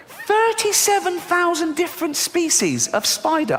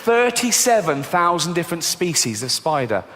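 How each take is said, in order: First: Very high, slow squeal of outrage; high-pitched disbelief. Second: Said in the usual way. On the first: Acted. Comic telling audience how many spiders exist, squeaky disbelief. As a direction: repeat it way up high, drawn out. Same words repeated in disbelief.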